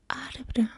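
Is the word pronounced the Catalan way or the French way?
Catalan. It is pronounced with Catalan sounds.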